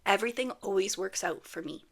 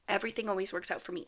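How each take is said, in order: First: Said in the usual way. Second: Quick repeat of the affirmation, rattled off; fast repeat. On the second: Shown as a demonstration. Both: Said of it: "My favorite thing, affirmation".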